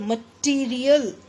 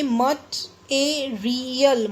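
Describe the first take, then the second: First: मटेरियल run together as ma-TEE-ri-yal; मटेरियल smoothly, without syllable breaks; joined-up pronunciation. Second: मटेरियल split as mat-e-ri-yal; मटेरियल slowly, syllable by syllable; broken into syllables. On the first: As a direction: say मटेरियल as one word with a long ee. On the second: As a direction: say मटेरियल in pieces, first syllable set apart. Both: Shown as a demonstration. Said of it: "इसको actually ऐसे बोलेंगे".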